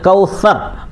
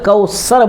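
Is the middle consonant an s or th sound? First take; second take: th; s. First: The middle consonant is a th sound. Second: The middle consonant is an s sound. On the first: The speaker calls it right. "आपको सा निकालना है" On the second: The speaker calls it wrong. "कौसर नहीं है"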